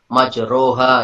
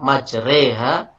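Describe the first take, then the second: First: The middle vowel sounds like o. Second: The middle vowel sounds like e. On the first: The speaker calls it wrong. "itu nggak bisa kita baca majroha" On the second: The speaker calls it right. "Tetap harus kita membacanya majreha"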